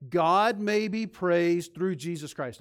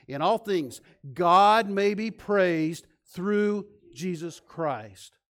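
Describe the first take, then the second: First: Loud, slow unison recital of the verse; leading a recitation. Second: Louder, very slow drawn-out recital; repeat recitation. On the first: Pastor leads congregation in reciting the verse, loud and slow. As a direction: lead the church through it word by word. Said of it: "say it with me". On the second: Pastor repeats the verse with congregation, louder and slower. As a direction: stretch every word and lift the room with it. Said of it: "One more time". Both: Real, not acted.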